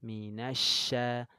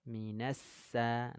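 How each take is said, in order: First: Minasya slow with a spread sh; correct shin. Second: Minasa slow with a sharp s; wrong sin. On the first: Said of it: "shin menyebar angin". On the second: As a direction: say minasa slowly, the mistake. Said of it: "jangan sampai tertukar". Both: Shown as a demonstration.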